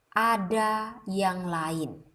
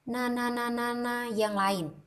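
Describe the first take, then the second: First: "ada yang lain" slow, every syllable crisp; correct articulation. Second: Words run together, mumbled, softer; wrong articulation. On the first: Teacher showing the right way, slow and crisp. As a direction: spell out each word clearly. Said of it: "itu versi artikulasi yang benar". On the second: Teacher showing the wrong way, mumbled and slurred. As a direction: slur "yang lain" carelessly. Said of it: "itu adalah kalimat salah". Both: Shown as a demonstration.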